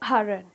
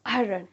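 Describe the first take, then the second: First: A slight r sound is heard in it. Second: The same.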